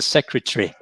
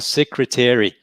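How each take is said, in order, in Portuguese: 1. Dito com sotaque britânico, uma vogal é engolida. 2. Dito com sotaque americano, todas as vogais são pronunciadas. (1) "em inglês britânico" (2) "em inglês americano"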